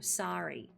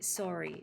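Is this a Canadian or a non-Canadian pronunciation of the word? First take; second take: non-Canadian; Canadian. First: It is said with a non-Canadian vowel sound. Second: It is said with a Canadian vowel sound. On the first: It does not mark the speaker as Canadian. "instead of sorry" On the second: It gives the speaker away as Canadian. "how I'd say sorry"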